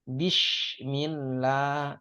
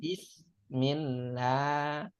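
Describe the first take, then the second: First: It is said with an sh sound. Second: It is said with a plain s sound. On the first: The meaning of the phrase is changed. The speaker calls it wrong. "Karena pakai shin" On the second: It means with the name of God. The speaker calls it right. "Bismi dengan menyebut nama"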